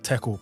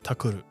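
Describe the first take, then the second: First: It is said the English way, ending in -kle. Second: It is said the Japanese way, ending in -kuru. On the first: "tackle is like tackle" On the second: "they say like takuru"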